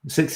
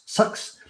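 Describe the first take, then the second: First: The vowel is a clear short i sound. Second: The vowel sounds close to the u in sucks. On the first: "Six is the way you should say it. It's the proper way" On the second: "I think New Zealanders say sucks"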